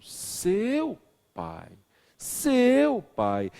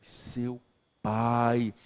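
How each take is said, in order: First: Seu much higher and louder; stress on seu. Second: Pai set apart after a pause; stress on pai. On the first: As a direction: shoot seu up and punch it. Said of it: "mas eu falo". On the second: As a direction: pause after seu, then land on pai. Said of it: "Se eu digo a alguém". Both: Shown as a demonstration.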